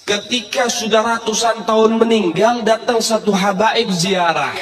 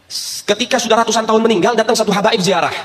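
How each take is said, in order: First: Slow, drawn-out retelling. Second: Said in the usual way. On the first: Acted. Preacher slowing down for the crowd. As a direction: stretch each word out slowly. Preacher repeats line slowly.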